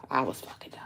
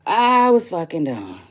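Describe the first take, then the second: First: Unvoiced, under the breath; whispered. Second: Louder, full voice; loud declaration. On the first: Whispering to viewers she was done. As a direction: whisper it like a secret. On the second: Telling viewers loudly she was done. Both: Shown as a demonstration.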